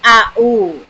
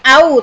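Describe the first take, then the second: First: Each letter name is said separately. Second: It is read as one short syllable. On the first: The speaker calls it right. "Dibaca semua A U" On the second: The speaker calls it wrong. "bukan A U"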